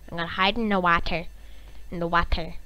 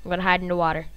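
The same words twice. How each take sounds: First: "water" said as WAH-ter; put-on "wah-ter" for "water"; odd "water" pronunciation. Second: Said in the usual way. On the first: Shown as a demonstration. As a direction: open the first vowel of "water" to "ah". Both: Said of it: "I don't know why I was saying water".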